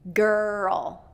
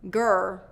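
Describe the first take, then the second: First: The word ends with a clear dark L. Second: The word ends without the final dark L. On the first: The speaker calls it right. "You have to get girl" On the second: The speaker calls it wrong. "You don't want to just be saying gur"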